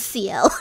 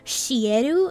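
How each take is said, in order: First: The name is said as 'see-el', starting with 's'. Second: The name is read syllable by syllable, starting with 'sh'. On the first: It is the character's actual name. The speaker calls it right. "that is not his name. It is C L" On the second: It follows a letter-by-letter reading of the name. The speaker calls it wrong. "they would go by the Romaji uh, pronunciation of his name"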